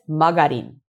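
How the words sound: It is said like magarin, from the spelling.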